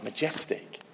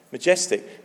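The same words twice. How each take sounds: First: Majestic whispered, breath only; awed whisper. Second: Said in the usual way. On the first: Acted. Preacher answering what God is like, in an awed whisper. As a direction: breathe the word in awe.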